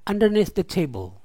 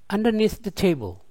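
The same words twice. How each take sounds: No difference in how they are said.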